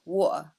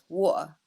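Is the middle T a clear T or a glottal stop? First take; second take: glottal stop; glottal stop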